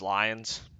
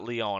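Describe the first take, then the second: First: The name is said like Lions. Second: The name is said like Leon. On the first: The speaker calls it right. "I know it's Lions" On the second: The speaker calls it wrong. "I know it's not Leon"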